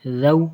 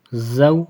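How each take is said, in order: First: "زو" said as a gentle th; soft th. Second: "زو" with a firm, buzzing z; hard z. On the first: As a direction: ease "زو" out softly, tongue between the teeth. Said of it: "اور اس کو نرمی سے". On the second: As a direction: press hard on the z of "زو". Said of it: "اس کو سختی سے پڑھنا ہے". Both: Shown as a demonstration.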